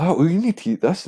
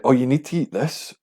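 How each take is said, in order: First: Much higher nagging mimicry; mocking pushy person, higher still. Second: Higher, nagging mimicry; mocking pushy person. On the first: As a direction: push the food insistently, pitch climbing. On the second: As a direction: imitate someone pushing food on you. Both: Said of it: "saying, like".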